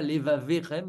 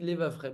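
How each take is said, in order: First: A short vowel is sounded after the middle consonant. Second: No vowel is sounded after the middle consonant. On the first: The speaker calls it wrong. "je ne dis pas l'evaverem" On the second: The speaker calls it right. "mais je dis l'evafrem"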